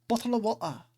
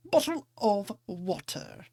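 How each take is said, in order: First: "bottle of water" glottal and quick; quick Cockney "bottle of water", no t's; rapid London "bottle of water" with glottal stops; London accent, faster. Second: "Bottle of water" with dropped t's, slow; Cockney "Bottle of water", t's swallowed; London accent. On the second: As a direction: glottal stops in "Bottle of water", drawn out. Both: Shown as a demonstration. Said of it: "I may not have a London accent".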